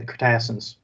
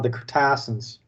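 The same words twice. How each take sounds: First: It is said in a normal everyday accent. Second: It is said in a strong Southern accent. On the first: "if I'm saying it like I'd normally say it" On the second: "say it with a really strong Southern accent"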